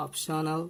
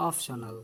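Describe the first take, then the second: First: "optional" with a clear p, OP-sho-nal; careful model "optional"; correct pronunciation. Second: "optional" as OF-sho-nal, f for p; wrong pronunciation. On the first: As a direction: close the lips on the p of "optional". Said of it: "We should say". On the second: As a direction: soften the p of "optional" into an f. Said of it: "We shouldn't say optional". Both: Shown as a demonstration.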